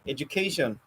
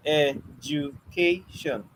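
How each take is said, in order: First: Said in the usual way. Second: Education stretched out slowly, ed-u-ca-tion, each syllable drawn apart. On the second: Shown as a demonstration. Teacher counting the syllables of Education out slowly for the class. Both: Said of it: "It has four syllables".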